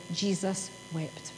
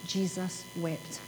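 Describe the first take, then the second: First: Very soft and slow, almost breathed; hushed reverent reading. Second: Very soft, slow and low; hushed reverent repeat. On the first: Preacher reading the verse to the congregation, hushed and slow. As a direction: let the two words fall quietly and slowly. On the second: Preacher repeating the verse to the congregation, hushed and slow. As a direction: lay the words down gently, barely voiced. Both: Acted.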